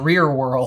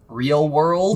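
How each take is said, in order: First: The first word ends with an R sound. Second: The first word ends with an L sound. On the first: The speaker calls it wrong. "I would call it Rear World" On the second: The speaker calls it right. "I used to not be able to say the T V show"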